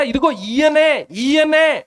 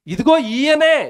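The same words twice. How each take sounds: First: ఈయనే slowed, high and repeated for weight; stress on ఈయనే. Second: ఇదిగో drawn out slowly and high, then ఈయనే; slow, pointed "ఇదిగో ఈయనే" with weight on ఇదిగో; stress on ఇదిగో. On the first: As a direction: hammer ఈయనే twice, slowly and higher. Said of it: "మళ్ళీ ఎవరైనా అనుకునేరు". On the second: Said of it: "చూసారా?". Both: Shown as a demonstration.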